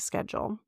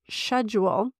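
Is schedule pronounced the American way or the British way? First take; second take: American; British. First: It is pronounced the American way. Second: It is pronounced the British way. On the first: "here in the Midwest, I still say schedule" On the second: "which I know is correct for all of my UK and Australian friends"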